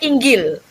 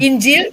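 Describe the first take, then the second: First: The middle consonant is a hard g sound. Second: The middle consonant is a soft j sound. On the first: This is how it is said in Egypt. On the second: This is how it is said in Saudi Arabia.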